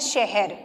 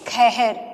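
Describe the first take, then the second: First: The word begins with a 'sh' sound. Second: The word begins with a 'kh' sound. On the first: "हमने लिखा शहर" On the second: "ब्रजभाषा में इसका उच्चारण कैसे करेंगे?"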